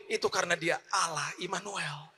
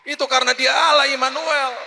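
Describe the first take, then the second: First: Said in the usual way. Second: Allah Immanuel called out high and loud; proclaimed loud. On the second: Shown as a demonstration. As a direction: shout the second time with force. (seruan lantang, tekanan pada Allah)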